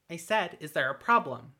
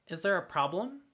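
First: Louder repeat. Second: Mildly pointed question; a hint of impatience in the ask; pointedly. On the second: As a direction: elf prodding a dazed Embrosk, pointed. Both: A narrator's reading. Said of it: "the elf asked pointedly".

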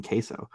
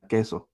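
First: "queso" said the American way, KAY-so; anglicized pronunciation. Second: "queso" said the Spanish way, KEH-so; proper Spanish pronunciation. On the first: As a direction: say "queso" with an English ay glide. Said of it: "just say fucking queso". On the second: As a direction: say "queso" with a pure, short Spanish e. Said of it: "I said it, like, properly". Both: Retold or imitated.

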